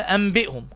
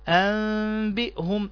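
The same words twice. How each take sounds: First: A clear n sound is heard before the b. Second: A hidden nasal m is heard before the b. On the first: The speaker calls it wrong. "ما تقولش" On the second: The speaker calls it right. "أكنك بتقولها ميم بس مش باينة"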